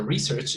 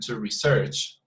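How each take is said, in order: First: "research" as a noun, RE-search; noun stress on research. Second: "research" as a verb, re-SEARCH; verb stress on research. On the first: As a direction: stress the first syllable of "research". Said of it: "So research is a noun". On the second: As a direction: stress the second syllable of "research". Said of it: "to research is a verb". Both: Shown as a demonstration.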